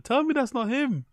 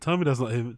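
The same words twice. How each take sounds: First: High, squeaky quote; high-pitched mimicry. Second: Said in the usual way. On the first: Re-quotes clip's line, pitched way up.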